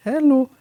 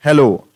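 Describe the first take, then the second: First: Put-on "hello" in a very high, girlish falsetto; raised pitch. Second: "hello" called out loud, falling at the end; lower-pitch hello. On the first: Teacher demonstrating pitch change to students, "hello" squeaked very high. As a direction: flip "hello" way up high, then let it fall. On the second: Teacher showing students pitch on "hello", loud and low take. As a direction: say "hello" loudly in a natural register, dropping off. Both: Shown as a demonstration. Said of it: "मैंने अपने pitch को change किया है".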